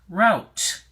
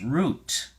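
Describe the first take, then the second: First: The vowel sounds like the one in out. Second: The vowel sounds like the one in boot. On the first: "can also be pronounced route" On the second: "The first pronunciation is root"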